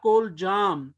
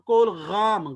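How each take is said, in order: First: The middle consonant is a j sound. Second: The middle consonant is a throaty gh sound. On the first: "या कोल जाम" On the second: "गैन से"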